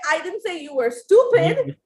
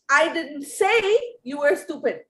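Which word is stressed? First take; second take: stupid; say. First: The stress is on the word stupid. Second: The stress is on the word say.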